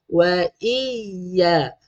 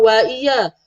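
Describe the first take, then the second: First: "Wa iya" lingering on a doubled y; pressed doubling. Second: "wa iya" with a light single y; missing doubling. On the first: (tekan sabdu pada "Wa iya") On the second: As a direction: run through "wa iya" without pressure. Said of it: "Bukan wa iya". (baca "wa iya" tanpa sabdu) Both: Shown as a demonstration.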